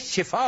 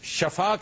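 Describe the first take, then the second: First: The first vowel is an 'i' sound. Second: The first vowel is an 'a' sound. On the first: It means healing. The speaker calls it right. "शिफा होता है। इसके नीचे जेर है" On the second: It means shore or death. The speaker calls it wrong. "यह गलत है"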